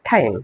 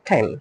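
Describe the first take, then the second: First: The word is said loudly and forcefully. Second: The word is said softly and gently. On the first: The speaker calls it wrong. "জোরে বলবো না" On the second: The speaker calls it right. "আস্তে বলবো time"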